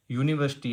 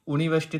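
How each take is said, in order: First: यूनिवर्सिटी begun with a "yoo" glide; y-sound start. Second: यूनिवर्सिटी said wrongly with a plain "oo" start, no y glide; mispronounced first sound. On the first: Teacher corrects the reading for students, यूनिवर्सिटी with "yoo" at the start. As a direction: say यूनिवर्सिटी as "yooniversity". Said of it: "sound किसकी दे रहा है". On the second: Teacher shows students the mistake, यूनिवर्सिटी starting with a bare "oo". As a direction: say यूनिवर्सिटी as "ooniversity". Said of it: "थोड़े ना है". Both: Shown as a demonstration.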